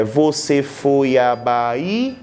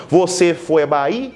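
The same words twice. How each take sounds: First: "Você foi à Bahia" slow, every syllable counted with "à" and "Bahia" kept apart; six syllables. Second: "Você foi à Bahia?" run together, "foi à" merged into one syllable; five syllables. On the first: Teacher counting six syllables for students, slowly. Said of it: "ah, deu seis sílabas". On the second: Teacher showing the elided five-syllable reading. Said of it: "Ah, fica cinco sílabas". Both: Shown as a demonstration.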